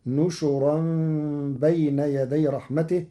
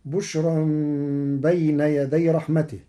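First: نشرا said "nushuran"; recited verse, نشرا in three syllables, nu-shu-ran; nun and shin with damma. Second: بشرا starting with b, "bushran"; recited verse, بشرا as bush-ran; first reading of بشرا. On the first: Teacher shows Warsh's reading, نشرا as nushuran. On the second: Teacher recites before Warsh's change, بشرا as bushran. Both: Shown as a demonstration. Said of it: "بنون وشين مضمومتين".

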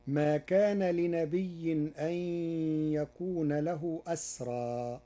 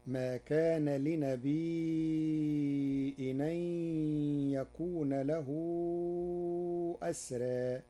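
First: لنبي said linnabiyyi, with a doubled ya, loud; Hafs reading. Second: لنبي said linabi'i, with the ya made silent and followed by a hamza; Warsh reading. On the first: Teacher recites the verse with لنبي having a doubled ya. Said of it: "قرأ ورش كلمة لنبي". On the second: Teacher shows the Warsh reading of لنبي with a hamza. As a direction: recite لنبي with a hamza after the ya. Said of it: "فتصير". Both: Shown as a demonstration.

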